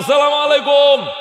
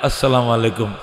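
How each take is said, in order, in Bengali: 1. এই অভিবাদনটি জোরে ও দীর্ঘ, যেন দূর থেকে চেঁচিয়ে বলা হচ্ছে। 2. এই অভিবাদনটি নরম ও কোমল, কাছে থেকে আস্তে করে বলা হচ্ছে। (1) "তিন মাইল লম্বা এটা সালাম হইতো না" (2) "সুন্দর করে"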